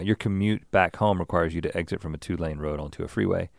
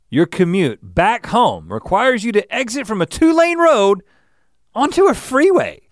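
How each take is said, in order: First: It is read in a flat, low-energy way. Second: It is read in a lively, high-energy way. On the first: The speaker calls it wrong. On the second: The speaker calls it right.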